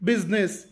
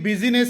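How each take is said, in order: First: The middle vowel is dropped, two syllables. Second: The middle vowel is pronounced, three syllables. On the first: The speaker calls it right. "ಐ ಶಬ್ದ silent ಆಗಿರುತ್ತದೆ" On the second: The speaker calls it wrong. "ಇಲ್ಲಿ ಬಿಸಿನೆಸ್ ಎನ್ನಬಾರದು"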